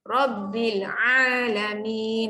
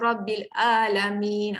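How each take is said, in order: First: The 'a' is pressed from the middle throat. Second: The 'a' is light, like a plain glottal stop. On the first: The speaker calls it right. "kalau Al-Fatihah alamin tekan tengah-tengah kerongkong" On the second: The speaker calls it wrong. "tu salahlah, salah sebutan. Alamin kita ambil ringan, itu jadi huruf hamzah"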